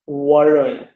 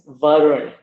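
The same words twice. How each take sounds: First: It begins with a w sound, rounded lips. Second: It begins with a v sound, lip on teeth. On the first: The speaker calls it wrong. "not Varun" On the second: The speaker calls it right. "So it is pronounced v. My name is Varun"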